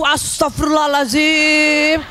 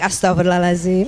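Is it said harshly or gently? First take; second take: harshly; gently. First: It is said in a harsh, exasperated way. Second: It is said in a soft, gentle way.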